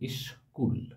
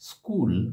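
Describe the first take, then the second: First: An extra vowel i comes before sk. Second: The word begins directly with the cluster sk. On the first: "দুটো দলের সঙ্গে উচ্চারিত হয়ে হয়ে যাচ্ছে ইস্কুল" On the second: "স্কুল শব্দের স্কুল দন্তস্বয় ক"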